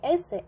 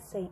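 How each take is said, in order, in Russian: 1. Ударение на первом слоге. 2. Ударение на последнем слоге. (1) "Не эссей" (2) "Именно на последний слог"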